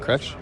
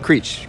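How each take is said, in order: First: The name is said like 'Kretsch'. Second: The name is said like 'Creech'. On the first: The speaker calls it wrong. "that's how you say it, right?" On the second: The speaker calls it right. "I knew it was slightly off"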